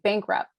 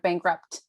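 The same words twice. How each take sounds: First: The final t sound is left off. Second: The final t sound is clearly pronounced. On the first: "deleting like a D or a T, like a duh or a tuh at the end of a word" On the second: "instead of"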